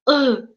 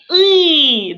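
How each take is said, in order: First: The vowel is short and reduced. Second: The vowel is a full Russian 'y'. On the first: This is the Tatar sound. The speaker calls it right. "читается "ы"" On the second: This is the Russian sound. The speaker calls it wrong. "то есть не "ы", да, как в русском языке"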